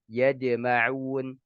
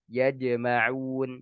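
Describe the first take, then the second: Both takes have the same delivery.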